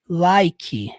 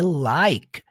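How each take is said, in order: First: The word ends with an added vowel sound. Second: The word ends cleanly on the K sound. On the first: The speaker calls it wrong. "talvez o jeito que você fale essa palavra seja assim" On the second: The speaker calls it right. "O último som dela é o som do K. É like. Termina no K"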